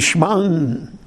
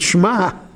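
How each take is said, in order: First: The word ends with an n sound. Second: The word ends with a plain vowel. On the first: "You should have the nun sound in it" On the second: "without a nun, without a gimel"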